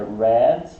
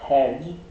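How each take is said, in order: First: The R is an English retroflex R sound. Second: The R is a Brazilian Portuguese R sound. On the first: The speaker calls it right. "É red e try" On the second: The speaker calls it wrong. "Tá errado"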